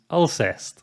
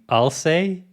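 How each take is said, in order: First: The name ends in an 'st' sound. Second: The name ends in an 'ay' sound. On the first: The speaker calls it right. "the correct pronunciation is Alcest" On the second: The speaker calls it wrong. "I've been pronouncing the band name Alcé, like I'll say"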